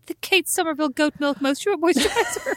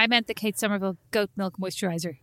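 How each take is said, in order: First: High, laughing ad announcer read; advert voice. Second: 'Kate Somerville goat milk moisturizer' with a lisp, stumbling softly. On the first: Retold or imitated. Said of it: "say the full name each time as advertising". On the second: Real, not acted. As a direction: trip over 'moisturizer' with a lisp. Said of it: "You can't even say that".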